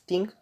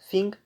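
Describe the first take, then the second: First: It is said in an Irish accent. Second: It is said in a standard accent.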